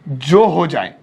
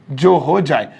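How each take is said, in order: Both takes have the same delivery.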